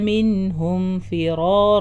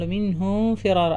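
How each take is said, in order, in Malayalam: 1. 'm' 'f'ക്ക് മുമ്പ് വ്യക്തമായി ഉച്ചരിക്കുന്നു. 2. 'm' മൂക്കിന്റെ ശബ്ദത്തോടെ 'f'യിലേക്ക് ചേരുന്നു. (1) "ഒന്നും മണിക്കരുത്, വെളിവാക്കിയിട്ട് സാധാരണ പോലെ പറയാം" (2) "അറിയാണ്ട് നമ്മൾ മിൻഹും ഫിറാറ ആ ലെവലിലായി പോകും"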